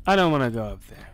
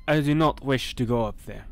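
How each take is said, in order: First: Said in the usual way. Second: "not" spelled out and leaned on, formal and firm; stress on not. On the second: Shown as a demonstration. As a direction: refuse firmly, pressing on "not".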